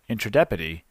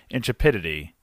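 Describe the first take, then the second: First: The second syllable sounds like 'tra'. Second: The second syllable sounds like 'trep'. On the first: The speaker calls it wrong. "I have been saying one word wrong this entire time" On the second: The speaker calls it right. "it is intrepidity"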